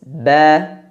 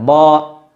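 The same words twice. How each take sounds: First: The syllable sounds thin and light. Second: The syllable sounds thick and heavy. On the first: The speaker calls it right. "maka keluarlah suara yang tipis" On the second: The speaker calls it wrong. "tidak dibaca dengan ba"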